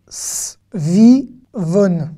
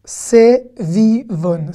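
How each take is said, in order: First: "Svivon" said quickly as two syllables, s and v run together; "Svivon", no vowel after the S; short form. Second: "Sevivon" said very slowly, with a short e after the S; "Sevivon" drawn out, E muet sounded; careful full form. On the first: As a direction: tight "Svivon" with a silent E muet. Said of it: "Sevivon ou svivon". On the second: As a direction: spell out "Sevivon" syllable by syllable, se-vi-von. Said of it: "si vous voulez vraiment mettre l'accent". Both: Shown as a demonstration.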